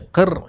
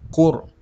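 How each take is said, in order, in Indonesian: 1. Suku kata ini memiliki vokal i yang tipis. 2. Suku kata ini memiliki vokal u yang membulat. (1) "Jangan baca qir" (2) "ra hendaklah dibaca dengan tebal"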